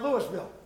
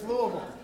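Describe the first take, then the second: First: The name is said with an outsider pronunciation. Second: The name is said with the local pronunciation. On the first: This is how people from elsewhere say it. The speaker calls it wrong. "And it's not Louisville" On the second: This is how people who live there say it. The speaker calls it right. "It's Louisville"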